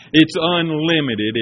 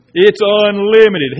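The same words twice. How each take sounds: First: Said in the usual way. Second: It's unlimited, louder and slow; It's unlimited, declared louder at a slow pace; emphatic repeat. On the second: Shown as a demonstration.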